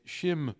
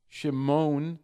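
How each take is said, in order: First: Shimon with the ayin sounded, broken up; correct pronunciation. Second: Shimon said smoothly, no ayin break; wrong way. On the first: Rabbi teaching the proper reading, Shimon broken up. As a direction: Shimon split between the syllables. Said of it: "It's Shimon". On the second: Rabbi showing the sloppy reading, Shimon run together. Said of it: "it's not". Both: Shown as a demonstration.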